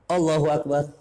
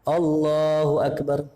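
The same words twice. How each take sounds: First: The phrase is said quickly and briefly. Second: The phrase is stretched out slowly. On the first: It is said only after the movement is finished. The speaker calls it wrong. "udah ruku baru Allahu Akbar" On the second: It lasts through the whole movement. The speaker calls it right. "Dari mulai gerakan sampai-sampai, ya, sampai ke rukun yang berikutnya"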